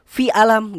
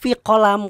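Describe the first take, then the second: First: The word begins with a glottal stop. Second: The word begins with a 'q' sound. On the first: "orang Mesir tuh ketika dia nanya nih misalnya kayak fi alam" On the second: "maksud dia tuh fi kolam"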